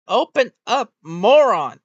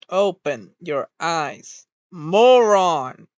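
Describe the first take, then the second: First: Loud and higher, exasperated, hitting moron hardest; furious shout. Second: Slow build, then moron yelled loud; fed-up shout. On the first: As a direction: bellow the insult at the frozen model. Yelling at avatar's closed eyes. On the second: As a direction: spell it out slowly, then explode on moron. Yelling at avatar again. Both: Real, not acted.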